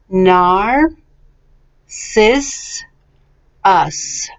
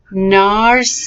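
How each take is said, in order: First: "Nar, sis, us", a long pause after each part; syllable by syllable. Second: "Narcissus" joined up, still carefully in syllables; a little quicker. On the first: Teacher models for repetition, syllable by syllable. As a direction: break "Nar, sis, us" into separate slow beats. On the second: Teacher speeds up the practice word, a little quicker. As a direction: run "Narcissus" together with only slight breaks. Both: Shown as a demonstration. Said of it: "let's go a little bit more quickly".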